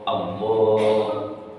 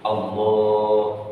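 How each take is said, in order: First: The first vowel of Allah is kept short. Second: The first vowel of Allah is kept short.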